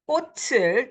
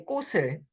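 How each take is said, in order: First: The final consonant links over as a ch sound. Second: The final consonant links over as a soft s. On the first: "the ch sound at the end, ... it gets carried over" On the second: "can be soft s"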